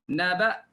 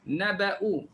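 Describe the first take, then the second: First: The word ends abruptly on the glottal stop. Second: The word ends with a vowel after the hamzah.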